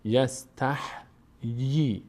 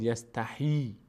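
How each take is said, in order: First: "یستحیی" slowly as yas-tah, then yee; vowelless H. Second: "یستحیی" run together as yas-ta-hee; wrong kasra on H. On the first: Teacher shows the correct reading, h and yee separated. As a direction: close on h, then start a long yee in "یستحیی". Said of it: "ه ساکنه". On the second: Teacher shows students the mistake, h carrying ee. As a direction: put the long ee straight on the h of "یستحیی". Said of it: "نگید یستحیی". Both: Shown as a demonstration.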